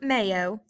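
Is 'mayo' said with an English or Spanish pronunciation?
English. It is said with an English pronunciation. It names the sandwich spread. The speaker calls it wrong. "not mayo. This isn't mayo"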